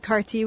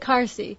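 First: The middle consonant is pronounced as t. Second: The middle consonant is pronounced as s.

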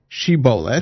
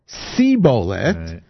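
First: The word begins with a 'sh' sound. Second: The word begins with an 's' sound. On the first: The speaker calls it right. "Say this word" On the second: The speaker calls it wrong. "they were not able to pronounce it correctly"

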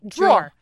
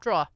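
First: The word ends with an 'er' syllable. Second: The word ends without an 'er' syllable. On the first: The speaker calls it right. "There's an E-R at the end" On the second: The speaker calls it wrong. "people near us on Long Island who say, oh, it's in the top drawer. No"

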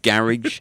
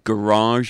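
First: It is said with a British pronunciation. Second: It is said with an American pronunciation. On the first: It is the speaker's own usual pronunciation. "instead of" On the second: It is adapted for an American audience. "For your benefit, I even mispronounce some words"

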